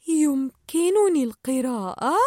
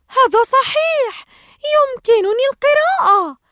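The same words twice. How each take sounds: First: Slow, puzzled questioning repeat; confused echo. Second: Much higher, loud triumphant cry; excited realization. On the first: Dory repeats Marlin's question, confused and slow. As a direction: echo it back, unsure. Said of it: "كررت دوري وقد أربكها السؤال". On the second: Dory remembers she can read and shouts with joy. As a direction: burst out as it dawns on you. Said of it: "ثم تذكرت وصاحت". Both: Acted.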